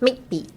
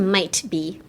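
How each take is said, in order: First: The T in might is cut off abruptly. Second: The T in might is fully released. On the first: The speaker calls it right. "silence the T, but put a ちっちゃい zi in the might" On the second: The speaker calls it wrong. "don't say might be"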